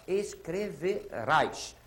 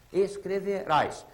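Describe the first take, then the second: First: Escreverás drawn out slowly, every syllable apart. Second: Escreverás with the last syllable RÁS clearly hit; stress on RÁS. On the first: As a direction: stretch out Escreverás. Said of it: "Como é que era a palavra original?". (dizendo Escreverás bem devagar, sílaba por sílaba) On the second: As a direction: lean on the final RÁS of Escreverás. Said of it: "Tem acento, não tem?". (Escreverás com a última sílaba RÁS bem marcada) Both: Shown as a demonstration.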